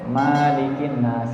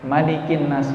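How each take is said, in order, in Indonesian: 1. Vokal setelah m dibaca panjang. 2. Vokal setelah m dibaca pendek. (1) "manya panjang" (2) "manya pendek"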